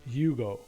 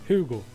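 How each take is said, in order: First: The name is said with an English pronunciation. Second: The name is said with a Swedish pronunciation. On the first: "English pronunciation" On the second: "the Swedish"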